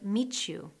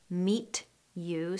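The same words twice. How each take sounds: First: The t and you merge into ch. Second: The t and you are said separately.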